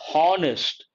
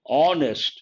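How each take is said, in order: First: The word starts with an audible H sound. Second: The word starts with no H sound. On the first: The speaker calls it wrong. "A lot of people pronounce this word honest" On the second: The speaker calls it right. "H is silent. So here we have to say honest"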